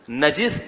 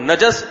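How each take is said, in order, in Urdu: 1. دوسری آواز 'i' کی ہے۔ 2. دوسری آواز 'a' کی ہے۔ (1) "نجس اس چیز کو کہتے ہیں جو گندی ہو" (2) "اور نجس اس گندگی کو کہتے ہیں"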